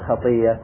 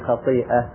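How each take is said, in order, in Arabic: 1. تتحول الهمزة إلى صوت ياء مشددة. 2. تُحفظ الهمزة كصوت توقف حنجري. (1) "قلنا خطيئة" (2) "كما فعلنا في خطيئة"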